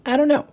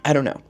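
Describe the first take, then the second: First: Very high rising squeak; squeaky high. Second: Said in the usual way. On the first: Real, not acted. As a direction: squeak it out, baffled. Repeats phrase differently.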